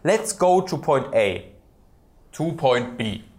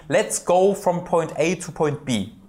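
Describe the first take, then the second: First: The voice drops in the middle, restarting. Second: The sentence flows without a mid-sentence drop.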